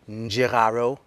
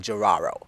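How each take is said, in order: First: The name begins with an N sound. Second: The name begins without an N sound. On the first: This is the traditional native form. "in my native language, we do say the N and the D together" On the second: This is the form used in America. "we have s- dropped the N and the D and say Jiraro"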